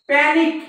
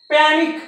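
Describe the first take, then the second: Both takes have the same delivery.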